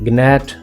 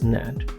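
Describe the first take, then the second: First: A g sound is heard at the start. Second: The g is silent at the start. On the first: The speaker calls it wrong. "No" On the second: The speaker calls it right. "It's नैट"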